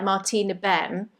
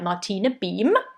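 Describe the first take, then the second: First: The name is said in an English accent. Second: The name is said in a German accent.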